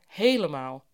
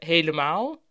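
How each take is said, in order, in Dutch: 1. De klemtoon ligt op de eerste lettergreep. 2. De klemtoon ligt op de laatste lettergreep. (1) "nu steeds vaker; we hebben die klemtoon nu naar voren gehaald" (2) "Vroeger zeiden we"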